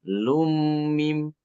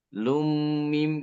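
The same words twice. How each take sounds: Both takes have the same delivery.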